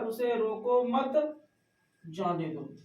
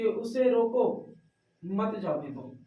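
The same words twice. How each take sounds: First: The pause comes after 'mat'. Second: The pause comes after 'roko'.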